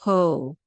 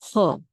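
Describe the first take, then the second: First: The o vowel is long and drawn out. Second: The o vowel is short and clipped. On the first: The speaker calls it wrong. "Don't say ho. Don't like don't say like a long O sound" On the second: The speaker calls it right. "It's a short O"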